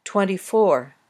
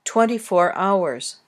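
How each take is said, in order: First: Twenty-four with four stressed; stress on the last part. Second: Twenty-four hours with twenty stressed, four light; stress on the first part. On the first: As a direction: land the weight on four. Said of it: "also usually stressed on the last part, the ones part". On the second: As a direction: lean on twenty before the noun. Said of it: "the stress can move to the first part of the number". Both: Shown as a demonstration.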